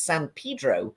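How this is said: It is said with an American-style pronunciation. The place meant is the town in California. "in California it's San Pedro"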